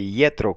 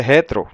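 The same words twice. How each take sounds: First: Yetro starting with an I glide; Septuagint pronunciation. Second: Jetro with a breathy Spanish J, stressed on JE; Spanish Bible pronunciation. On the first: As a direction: say Yetro with I, not J. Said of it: "dice Yetro con I". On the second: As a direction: say Jetro starting with an h-like J. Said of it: "Biblias españolas dice Jetro". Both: Shown as a demonstration.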